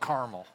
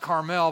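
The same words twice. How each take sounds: First: It is said the local Indiana way. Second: It is said the standard, non-local way.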